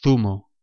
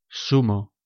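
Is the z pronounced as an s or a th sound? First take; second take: th; s. First: The z sounds like English th. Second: The z sounds like an s.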